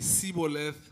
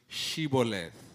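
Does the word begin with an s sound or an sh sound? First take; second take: s; sh. First: The word begins with an s sound. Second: The word begins with an sh sound. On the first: The speaker is an Ephraimite. "do not have the sound sh. So if you say Sibboleth" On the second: The speaker is not an Ephraimite. "pronounce the word Shibboleth"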